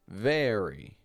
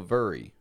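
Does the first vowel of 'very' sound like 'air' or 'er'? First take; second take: air; er. First: The first vowel sounds like 'air'. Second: The first vowel sounds like 'er'. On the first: The speaker calls it right. "almost as if it's like the word air" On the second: The speaker calls it wrong. "we actually don't pronounce it like an er sound. We don't go very"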